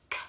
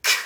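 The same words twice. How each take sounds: First: Soft, weak K click; a feeble little K, barely there; wimpy K. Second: Sharp, punchy K click; strong K. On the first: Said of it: "'cause that's a little wimpy". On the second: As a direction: hit the K hard and crisp. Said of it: "We want like a". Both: Shown as a demonstration.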